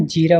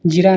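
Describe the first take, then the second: First: जीरा with a long ee; correct long vowel. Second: जीरा with a short i; wrong short vowel. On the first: Teacher corrects students, long vowel. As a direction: say जीरा as jee-raa. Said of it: "होता है". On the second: Teacher shows students the mistake, short vowel. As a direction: say जीरा as ji-raa. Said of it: "नहीं". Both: Shown as a demonstration.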